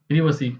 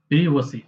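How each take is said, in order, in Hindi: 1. पहले अक्षर में छोटी 'i' की ध्वनि है। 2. पहले अक्षर में छोटी 'i' की ध्वनि है।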